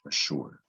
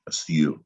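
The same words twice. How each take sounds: First: It is said with an English pronunciation. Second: It is said with a French pronunciation. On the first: "But in English, for some reason, we pronounce it ash" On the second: "In French, it's pronounced assure"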